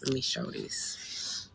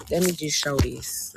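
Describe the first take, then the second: First: Soft, slow whispered aside. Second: Said in the usual way. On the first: Shown as a demonstration. Streamer whispering a line to her live audience. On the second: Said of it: "repeats it whispered".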